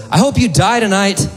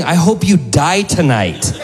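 First: High put-on curse at normal volume; imitated spiteful woman; homeless woman cursing. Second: High, slow, deliberate curse; imitated woman doubling down; homeless woman cursing. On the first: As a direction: curse a passerby in a pitched-up voice. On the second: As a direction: draw the curse out slowly, pitched up. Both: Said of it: "She goes".

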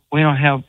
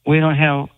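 No difference in how they are said.

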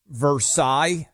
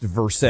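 First: Versailles said "ver-SIGH", silent final letters; French-style pronunciation. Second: Versailles said "ver-SALES", with the L sounded; Kentucky pronunciation. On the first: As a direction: end Versailles on an open "sigh". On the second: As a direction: end Versailles like the English word "sales". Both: Shown as a demonstration. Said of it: "being pronounced Versailles".

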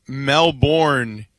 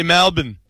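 First: Melbourne said slowly as mel-BORN; American pronunciation. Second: Melbourne said as MEL-bun; Australian pronunciation. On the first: Explaining the name to co-hosts, American mel-BORN. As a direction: give Melbourne its full BORN ending. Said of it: "we would say Melbourne in the United States". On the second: Explaining how locals say it, Australian MEL-bun. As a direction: clip Melbourne's ending down to "bun". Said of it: "with an Australian accent". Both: Shown as a demonstration.

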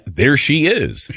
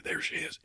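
First: Slow, drawn-out creepy gawk, rising then dropping; creepy admiring. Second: Whispered, very soft; quiet voice. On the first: Retold or imitated. Host replaying his sighting of a crush, creepily drawn out. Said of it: "that sounds creepy to say that". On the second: Shown as a demonstration. Host afraid to approach his crush, whispering. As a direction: whisper it under your breath. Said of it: "my quiet voice there".

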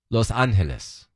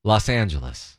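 First: "Los Angeles" as "lohs AHN-hee-les"; Spanish-style pronunciation. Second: "Los Angeles" as "lahss AN-juh-les"; usual American pronunciation. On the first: Host contrasting two versions, Spanish-style "Los Angeles". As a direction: lower "Los Angeles" with H in place of G. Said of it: "don't pronounce the G". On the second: Host contrasting two versions, American "Los Angeles". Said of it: "give you two pronunciations". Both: Shown as a demonstration.

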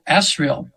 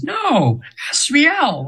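First: Said in the usual way. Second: "Asriel" sung out high, last syllable falling; high-pitched imitation correcting how to say "Asriel"; correcting pronunciation. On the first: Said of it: "I've probably said her name wrong". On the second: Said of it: "I tried to pronounce it".

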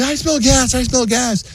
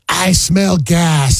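First: High-pitched imitation whine; mock whining. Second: Drawn-out, higher-pitched announcement; mock alarm. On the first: Husband imitating his wife's gas complaint, high mock whine. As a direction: whine it way up high, mocking her. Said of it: "then she starts whining". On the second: Wife raising the gas alarm as they walk in, drawn-out mock alarm. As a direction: imitate an alarmed call, stretching each word. Imitating wife's alarm on entering.

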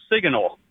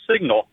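First: SIGNAL mimicked as SIG-uh-nul; imitated mispronunciation. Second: Said in the usual way. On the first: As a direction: say signal with an extra middle syllable, SIG-uh-nul. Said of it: "you said it was". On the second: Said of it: "instead of".

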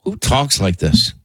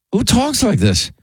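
First: Said in the usual way. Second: Much higher, disbelieving repeat; incredulous. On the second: Real, not acted. Host repeating the question in disbelief. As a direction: let the disbelief spike up.

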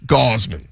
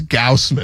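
First: "Gausman" as GAHZ-mun; local pronunciation. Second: "Gausman" with an OW vowel, GOWSS-man; colleague's mispronunciation. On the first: Shown as a demonstration. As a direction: open AH and a Z sound in "Gausman". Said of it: "That's how they say it". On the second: Retold or imitated. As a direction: rhyme the start of "Gausman" with house. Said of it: "Wex always says".

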